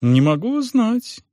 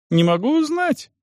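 First: Higher, slower nervous denial; flustered innkeeper. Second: Even higher, slow insistent denial; more flustered innkeeper. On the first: Innkeeper denying he knows, higher nervous voice. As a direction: plead ignorance, pitched up. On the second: Innkeeper insisting he knows nothing, pitched even higher. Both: Acted. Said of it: "наигранности".

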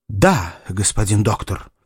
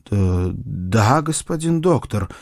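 First: Firm, steady yes. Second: Hesitant, lightly stammered yes; stammering mumble. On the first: Suitor confirming his love to the doctor, in a firm voice. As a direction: state it plainly and resolutely. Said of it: "твёрдым голосом произнёс". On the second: Suitor answering the doctor about his love, stammering a little. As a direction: mumble a nervous, faltering assent. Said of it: "заикаясь, забормотал Сэмюэль". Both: A narrator's reading.

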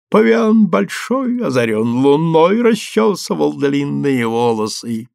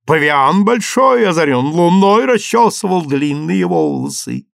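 First: Sway and croon it to yourself; drunken humming. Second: Sung while dancing round the table; sung, belt out a silly ditty; singing. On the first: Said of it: "покачиваясь и напевая". (sung, пьяно напевая) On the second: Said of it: "пел и танцевал". (sung, распевая на ходу) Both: A narrator's reading.

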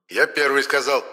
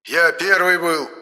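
First: Higher, peevish claim on первый; петулантно: Я первый сказал; grumpy exclaim. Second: Much higher, slow stubborn первый; slow cross protest on первый; angry insistence. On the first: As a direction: squabble like a child. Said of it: "сварливо воскликнул". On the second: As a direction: huff and insist you were first. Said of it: "рассердился Моня". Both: A narrator's reading.

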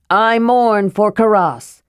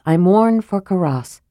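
First: Mild shout. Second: Said in the usual way. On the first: Acted. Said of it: "he shouted loudly". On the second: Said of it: "nothing carved on it except the words".

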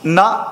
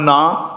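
First: ਨਾ said short, as ਨ; ਨਾ without the long aa; short-vowel na. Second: ਨਾ said with a long aa; ਨਾ as naa, not a short na; long-vowel naa. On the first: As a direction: clip the vowel of ਨਾ to a brief a, na. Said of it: "ਤੇ ਹੁਣ ਨਾ". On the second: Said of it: "ਇੱਥੇ ਨੰਨੇ ਨੂੰ ਕੰਨਾ ਲੱਗਾ". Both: Shown as a demonstration.

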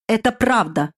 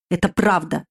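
First: Exclaiming. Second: Said in the usual way. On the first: A narrator's reading. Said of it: "вскричал Гуд". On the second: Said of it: "сказал я".

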